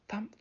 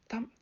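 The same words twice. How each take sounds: The two takes are said the same way.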